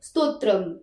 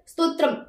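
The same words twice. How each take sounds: First: The final m carries a full vowel sound. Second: The final m is cut short without vowel. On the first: "फक्त साधं म असतं तर" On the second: "पाय मोडलेला असेल"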